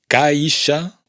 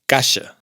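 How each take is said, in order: First: An 'ee' vowel is heard before the 'sh'. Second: No 'ee' vowel is heard before the 'sh'. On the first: The speaker calls it wrong. "caixa no es caixa" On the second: The speaker calls it right. "la I no se pronuncia"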